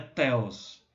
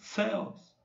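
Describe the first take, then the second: First: It begins with a plain t sound. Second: It begins with a soft th sound. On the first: The speaker calls it wrong. "não é Theos" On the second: The speaker calls it right. "Aquele T H de The End"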